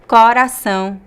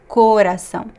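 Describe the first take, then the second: First: The first vowel is an open O. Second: The first vowel is a closed O. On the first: This is how many people in the northeast say it. "with the open O" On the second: This is how most people in the southeast and south say it. "Most people would say with the closed O"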